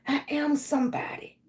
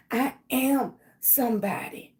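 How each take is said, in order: First: Whispered. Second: Said in the usual way. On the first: Shown as a demonstration. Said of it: "repeats affirmation in a whisper". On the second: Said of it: "leads affirmations, repeats whispered".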